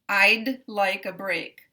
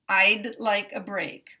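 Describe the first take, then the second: First: The D is released separately before the next word. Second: The D is released separately before the next word.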